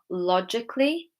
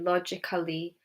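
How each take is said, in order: First: The 'a' before 'ly' is silent. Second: The 'a' before 'ly' is pronounced as a syllable. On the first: The speaker calls it right. "So the A is silent in these words" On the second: The speaker calls it wrong. "If I were to pronounce the A, it would be"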